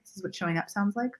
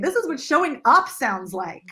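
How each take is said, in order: First: It is said flatly, with no strong emphasis. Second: The word up is punched with strong emphasis. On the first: The speaker calls it wrong. "a really generic way of saying it" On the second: The speaker calls it right. "I breathed and I punched the word up like I like it mattered to me"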